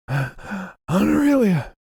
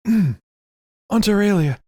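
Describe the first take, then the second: First: Frantic call, high. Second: Slow, louder high call. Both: Acted. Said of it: "and he's like".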